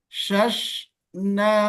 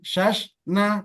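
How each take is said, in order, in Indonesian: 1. Bunyi sh mengalir keluar dan dipanjangkan. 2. Bunyi sh dilepas tiba-tiba dan dipotong pendek. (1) "tapi alirkan" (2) "Jangan shash na"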